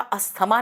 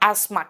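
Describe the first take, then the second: First: The 'th' sound is pronounced in the middle. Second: The 'th' sound is left silent. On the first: The speaker calls it wrong. "उसको English में बेटा अस्थमा नहीं कहते" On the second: The speaker calls it right. "टी एच वहां पे silent है"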